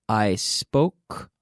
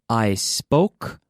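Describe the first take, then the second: The two takes are said the same way.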